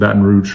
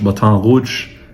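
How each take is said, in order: First: It is said with an American pronunciation. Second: It is said with a French pronunciation. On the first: "everyone pronounces it Baton Rouge from Louisiana" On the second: "For those of you that speak French"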